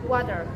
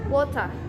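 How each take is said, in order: First: It is said in an American English accent. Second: It is said in a British English accent. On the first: "kalau misalnya Inggris Amerika menyebutnya dengan" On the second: "seperti ini kalau orang British"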